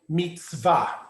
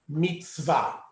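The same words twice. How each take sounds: First: It is said in modern Hebrew style. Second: It is said in modern Hebrew style.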